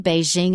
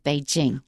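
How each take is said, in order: First: It is said with the common American pronunciation. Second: It is said with the standard, right pronunciation. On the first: The speaker calls it wrong. "why did you say Beijing" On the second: The speaker calls it right. "instead of Beijing"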